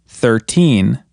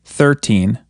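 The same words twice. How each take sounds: First: Put-on "thirteen" with "teen" drawn out and stressed. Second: "thirteen" with the first syllable stressed; counting-style "thirteen", weight on "thir". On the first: Teacher contrasting it with thirty, strong stress on "teen" in "thirteen". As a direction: lean hard on "teen" in "thirteen". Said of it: "try putting more emphasis on teen". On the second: Teacher counting teen numbers for learners, first-syllable stress on "thirteen". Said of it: "more emphasis on the first syllable". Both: Shown as a demonstration.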